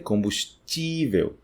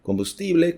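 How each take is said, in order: First: "combustível" slowly as com-bus-TCHÍ-veu; Portuguese pronunciation. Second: "combustível" as com-bus-TI-ble, higher; hard t and final ble in "combustível"; Spanish pronunciation. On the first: Teacher shows how T I sounds, Portuguese pronunciation. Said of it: "soa como ti". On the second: Teacher contrasts with Portuguese, Spanish pronunciation. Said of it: "Combustível pra combustível". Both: Shown as a demonstration.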